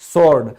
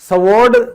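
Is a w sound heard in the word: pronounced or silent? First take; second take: silent; pronounced. First: The w sound is silent in the word. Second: A w sound is pronounced in the word. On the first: The speaker calls it right. "तो हम इसको कहते हैं स्वॉर्ड" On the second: The speaker calls it wrong. "तलवार को स्वॉर्ड नहीं कहते"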